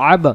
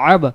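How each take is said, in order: First: The final b is released with an echoing bounce. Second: The final b is released with an echoing bounce.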